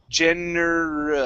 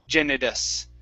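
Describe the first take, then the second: First: The middle consonant is a clear r. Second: The middle consonant sounds like a d. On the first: The speaker calls it right. "Push the tongue down on the R" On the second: The speaker calls it wrong. "You're letting your tongue hit the top"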